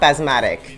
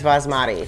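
First: The word ends in a k sound. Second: The word ends in a plain vowel. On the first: The speaker calls it wrong. "It's like you're saying the rice is asthmatic" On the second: The speaker calls it right. "It's basmati"

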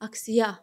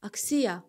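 First: The stress is on the last syllable. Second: The stress is on the second syllable. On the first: "Sona atın" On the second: "i-nin üzərinə ataq"

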